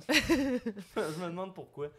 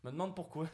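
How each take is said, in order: First: Slow, laughing, louder sarcastic take. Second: Said in the usual way. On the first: Shown as a demonstration. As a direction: drag it out with irony. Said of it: "second take, laughing, slowed". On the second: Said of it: "repeats it hammed up".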